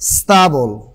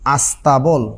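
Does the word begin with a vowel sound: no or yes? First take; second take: no; yes. First: The word starts directly with a consonant cluster. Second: A vowel sound is added before the cluster.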